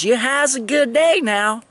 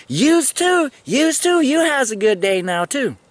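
First: High, lightly voiced friendly goodbye; imitating her farewell. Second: High, loud, sing-song parroting; mock echo of her dialect. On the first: The sergeant saying goodbye, in a high mock friendly voice. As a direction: send him off like the lady. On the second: Answering the sergeant by echoing her dialect, in a high mock sing-song. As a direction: throw her words back, hammed up. Mimicking her grammar back.

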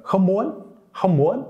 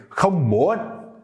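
First: "không muốn" started high, rising at the end; a happier, high-pitched "không muốn"; excited high start. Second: "không muốn" forceful and high, dipping then rising; emphatic, angry. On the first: Teacher showing how to sound more excited, high-pitched "không muốn". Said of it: "a little bit more happy if you start at a higher pitch". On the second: Teacher showing how to sound more angry, emphatic "không muốn". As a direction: hit "không muốn" hard with a strong rise. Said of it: "if you want to sound more emphatic, more strong, more angry". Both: Shown as a demonstration.

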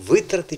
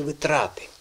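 First: "витрати" with ВИ high and strong; stress on first syllable. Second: "витрати" with a long ТРА; stress on second syllable. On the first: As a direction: hit ВИ in "витрати". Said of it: "як ти думаєш". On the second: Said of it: "Правильно ви думаєте". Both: Shown as a demonstration.

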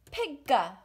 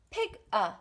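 First: Pigga blended into one quick sound; connected syllables. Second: Pig a split into two sounds; separated syllables. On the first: Teacher showing the joined beat. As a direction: run Pigga together. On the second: Teacher contrasting split syllables. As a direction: say Pig and a apart. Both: Shown as a demonstration. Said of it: "How many sounds? Two sounds. Connected".

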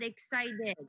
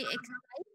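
First: Excited with a clear final D; excited, ending on a crisp D. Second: Excite without the final D; excite, no D sound at the end; dropped D. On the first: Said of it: "but not excited". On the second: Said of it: "So you'll say excite". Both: Shown as a demonstration.

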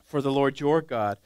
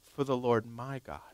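First: "your" in "For the Lord your God" pressed firmly; stress on your. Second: "my" in "For the Lord my God" said softly, low and weighed; stress on my. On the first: Preacher quoting Saul, pointedly stressing "your". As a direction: lean on "your" to show Saul's distance. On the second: Preacher showing the words Saul left out, quietly stressing "my". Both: Shown as a demonstration. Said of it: "You know what he didn't say?".

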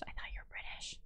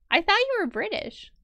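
First: Unvoiced whisper, stress on you. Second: High, stress on you; rising surprise on you; surprised. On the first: Aside to the stream viewers, whispered. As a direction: breathe it as an aside. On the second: Surprised question to a fellow player, high. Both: Real, not acted.

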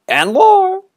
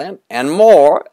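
First: Put-on very high, loud boy's cry; high squealing boy's call; shouting for more. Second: Put-on loud high eager boy's call; high excited boy's shout; shouting for more. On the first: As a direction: shriek it higher still. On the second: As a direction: yell it up to the kite, high and loud.

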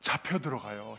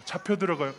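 First: Much lower, quieter mock answer. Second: Said in the usual way. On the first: Shown as a demonstration. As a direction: drop the voice low and soft for the answer. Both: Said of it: "제자들처럼 먹으면 어떻게 될까요?".

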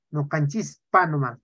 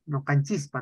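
First: "No canchispa nomás" spoken slowly, each syllable clear; slow correction. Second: Said in the usual way. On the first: Shown as a demonstration. Teacher corrects a student's writing, slowly and clearly. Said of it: "se dice". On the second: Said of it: "no es la C".

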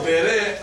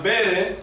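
First: "bere" as be-RE, last syllable stressed; stress on second syllable. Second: "bere" as BE-re, first syllable stressed. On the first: Teacher asks if meanings match, "bere" stressed on the last syllable. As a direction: slowly lean on the end of "bere". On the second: Teacher asks if meanings match, "bere" stressed on the first syllable. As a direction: slowly lean on the start of "bere". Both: Shown as a demonstration. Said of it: "does it mean the same?".

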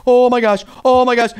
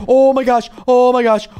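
The two takes are said the same way.

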